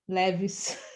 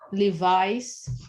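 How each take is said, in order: First: The name is said with Portuguese pronunciation. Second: The name is said with English pronunciation.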